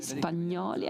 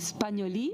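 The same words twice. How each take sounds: First: The name is pronounced in an Italian way. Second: The name is pronounced in a French way. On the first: "I say that in the Italian way" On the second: "Maybe this is the right pronunciation um, because of your French uh, origin"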